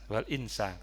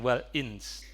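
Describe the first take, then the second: First: The word ends with a short final vowel. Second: The word ends on a clipped final consonant. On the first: The reading continues without a stop. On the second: The reading stops at this word.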